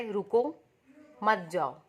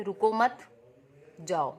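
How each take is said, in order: First: Loud "रुको", a clear pause, then "मत जाओ" together; firm "रुको" set apart from a falling "मत जाओ"; pause after रुको. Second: Loud "रुको मत" together, a clear pause, then "जाओ"; pause after मत. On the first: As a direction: split it as "रुको", stop, "मत जाओ". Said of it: "हो सकता है कोई इसको क्या पढ़े". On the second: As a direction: split it as "रुको मत", stop, "जाओ". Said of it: "दूसरा मीनिंग क्या है". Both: Shown as a demonstration.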